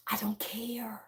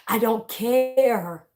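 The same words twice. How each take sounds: First: Very soft, near-whispered brush-off; dismissive. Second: Slow, drawn-out CARE after a laugh; gleefully dismissive. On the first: Speaker to critics of how they talk, dismissive. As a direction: say it under the breath, barely voiced. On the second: Speaker laughing off critics of how they talk, gleefully dismissive. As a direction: stretch "care" right out, amused. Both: Real, not acted.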